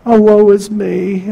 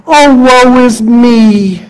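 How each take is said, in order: First: Quieter, sighing woe is me; a softer echo of the whining lament; softer mock lament. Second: Slow, drawn-out whine of woe; mock self-pitying wail to God; whiny mock lament. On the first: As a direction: let the self-pity sink. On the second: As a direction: ham up the self-pity. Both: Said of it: "you're blaming God".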